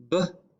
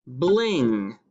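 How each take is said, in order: First: "B-l-ing" as b, l, ing with pauses; blend sounded out. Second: Said in the usual way. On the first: Shown as a demonstration. Teacher showing a two-letter blend, "B-l-ing" sound by sound. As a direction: break "B-l-ing" into three separate sounds. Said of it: "has a two-letter blend at the beginning". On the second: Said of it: "The word is bling".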